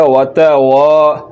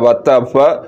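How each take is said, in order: First: The first vowel is held long. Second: The first vowel is cut short. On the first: The speaker calls it right. "زبر کو لمبا کرنا ہے" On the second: The speaker calls it wrong. "اگر آپ نے زبر کو لمبا نہ کیا"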